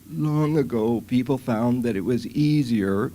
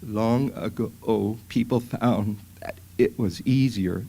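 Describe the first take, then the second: First: The voice sounds strained evenly the whole time. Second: The voice cuts out and stops mid-phrase. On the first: "you're hearing this strain that's very continuous" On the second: "That's a phonatory arrest. The voice just stops"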